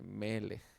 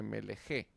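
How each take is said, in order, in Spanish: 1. La palabra termina en un sonido consonántico simple. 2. La palabra termina con un sonido vocal añadido. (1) "dice Melech" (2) "no dice Meleje"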